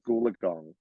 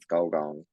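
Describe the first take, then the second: First: The name is said as Goolagong. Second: The name is said as Gulgong. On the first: The speaker calls it wrong. "They're always like Goolagong" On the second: The speaker calls it right. "no one ever knows how to pronounce Golgong"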